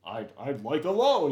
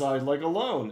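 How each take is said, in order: First: Mock white guy voice asking for a loan; crazy white guy voice. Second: Said in the usual way. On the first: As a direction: put on a goofy white guy voice. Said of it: "his crazy, like, white guy voice". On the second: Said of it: "And he does this".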